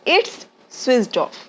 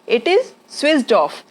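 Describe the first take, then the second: First: It is contracted into a single syllable. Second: It is said as two full separate words. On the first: "हमको ये बोलना है तो इट्स switched off" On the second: "इट इज को इट्स बोलते हैं बोलचाल की भाषा में"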